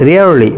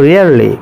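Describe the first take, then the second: Both takes have the same delivery.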